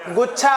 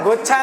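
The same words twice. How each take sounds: First: गुच्छा as "guchchha", plain g and short u; correct pronunciation. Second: गुच्छा said wrongly with o, "ghochha"; mispronounced word. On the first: Teacher gives class the right word, गुच्छा pronounced "guchchha". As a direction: give गुच्छा its short u, not o. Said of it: "गुच्छा होता है". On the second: Teacher tells class what is wrong, गुच्छा mispronounced as "ghochha". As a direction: put an o in place of u in गुच्छा: "ghochha". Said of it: "गुच्छा नहीं होता है". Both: Shown as a demonstration.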